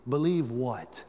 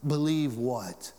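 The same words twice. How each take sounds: First: Said in the usual way. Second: Believe what drawn out slowly; slower repeat. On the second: Shown as a demonstration. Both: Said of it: "repeated slower".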